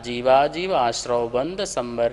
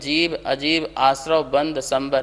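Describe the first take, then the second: First: The words are joined into one continuous compound. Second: Each word is said separately with breaks between. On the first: The speaker calls it right. "समस्त पद को अपन को एक साथ पढ़ना है ... ऐसा पढ़ना है" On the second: The speaker calls it wrong. "कुछ लोग पढ़ेंगे ... तो इस प्रकार से नहीं"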